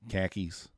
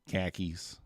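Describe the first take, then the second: First: The r sounds are dropped, like khakis. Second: The r sounds are dropped, like khakis.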